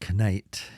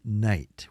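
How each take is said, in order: First: A K sound is pronounced before the N. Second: The word begins directly with an N sound. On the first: The speaker calls it wrong. "We don't say knight" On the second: The speaker calls it right. "It's just night"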